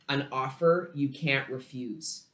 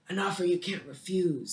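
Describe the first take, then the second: First: It is said in a plain, natural voice. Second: It is said in an imitated gangster voice.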